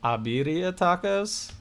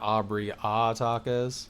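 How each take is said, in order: First: The name is said as one word, 'Abiria'. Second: The name is said as 'Aubrey' then 'A'. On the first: "he's thinking saying it's Abiria tacos" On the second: "I look at it like Aubrey Aubrey A tacos"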